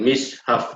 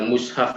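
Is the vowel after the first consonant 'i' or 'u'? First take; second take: i; u. First: The first vowel is a front 'i' sound. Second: The first vowel is a rounded 'u' sound. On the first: "mimnya itu dikasrohkan" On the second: This is the form used in one regional dialect. "bahasa mushaf itu biasa dipakai oleh orang-orang Najd"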